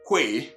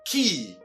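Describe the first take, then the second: First: It begins with a kw sound, as spelled. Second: It sounds exactly like the word key. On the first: The speaker calls it wrong. "never pronounced que as spelled" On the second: The speaker calls it right. "but rather what? Key"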